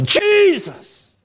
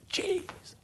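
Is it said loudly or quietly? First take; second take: loudly; quietly. First: It is said loudly. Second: It is said quietly.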